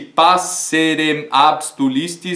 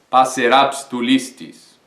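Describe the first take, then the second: First: The final m is kept before abstulistis. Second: The final syllable merges into abstulistis. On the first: The speaker calls it wrong. "não fecha na métrica" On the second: The speaker calls it right. "Se eu não cortar o M inteiro"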